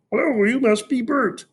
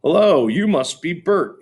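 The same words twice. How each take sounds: First: Sesame Street voice. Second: Said in the usual way. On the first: A narrator's reading. Fudge greeting Peter as Ernie, high puppet voice. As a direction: put on a cheerful Muppet voice. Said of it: "in his best Sesame Street voice".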